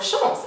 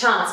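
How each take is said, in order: First: The word is said with a French accent. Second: The word is said with an English accent.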